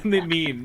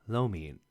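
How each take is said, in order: First: Said in the usual way. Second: Lo mein said as Mandarin lo mian; Chinese pronunciation. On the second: Shown as a demonstration. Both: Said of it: "I said it in Chinese".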